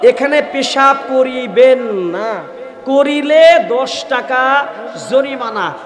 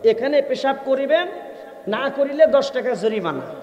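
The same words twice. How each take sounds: First: The pause falls right after 'না'. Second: The pause falls right after 'করিবেন'. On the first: Urinating here is forbidden; doing so costs a fine. The speaker calls it right. "লেখা ছিল" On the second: Urinating here is allowed; not doing so costs a fine. The speaker calls it wrong. "উনি ওনার মতো করে বুঝে নিছে"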